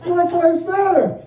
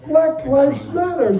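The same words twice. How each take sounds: First: Higher, slow, laughing; wife gushing over the takeout label; delighted repeat. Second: Higher, slow and drawn out; wife thrilled by the takeout label; delighted reading. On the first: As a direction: savor it again with a laugh. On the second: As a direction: read it like a lovely surprise. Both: Retold or imitated.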